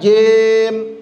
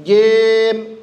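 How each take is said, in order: No difference in how they are said.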